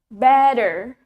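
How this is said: A D-like sound in the middle, clear R. "T in the middle is replaced by D"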